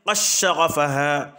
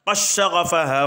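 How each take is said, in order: First: The d merges into a doubled sh sound. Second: The same.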